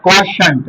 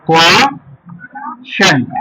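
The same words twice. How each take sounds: First: Said in the usual way. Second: Very slow, split KWO - SHANT; syllable by syllable. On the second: Shown as a demonstration. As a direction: break "quotient" with a long pause in the middle. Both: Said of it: "क्या पढ़ेंगे".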